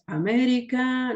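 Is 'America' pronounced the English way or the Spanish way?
Spanish. It is pronounced with Spanish vowels and stress. The speaker calls it wrong.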